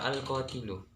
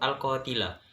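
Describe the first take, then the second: First: The word ends with a 'u' vowel. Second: The word ends with an 'a' vowel. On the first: The speaker calls it right. "menurut saya itu yang benar" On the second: The speaker calls it wrong. "kalimat yang kedua itu al-qatila"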